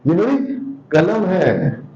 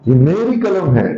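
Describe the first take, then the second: First: The stress falls on कलम. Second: The stress falls on मेरी.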